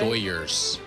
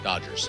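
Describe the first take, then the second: First: The middle consonant is a Y sound. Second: The middle consonant is a D sound.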